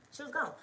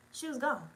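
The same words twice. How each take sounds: The two takes are said the same way.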